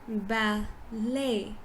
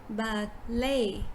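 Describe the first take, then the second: The two takes are said the same way.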